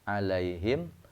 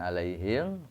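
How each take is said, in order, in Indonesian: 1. M di akhir ditutup jelas dengan bibir. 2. M di akhir berbaur sengau ke kata berikutnya. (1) "bahamnya alaihim" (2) "jangan alaihim karena bukan ikhfa sapawi"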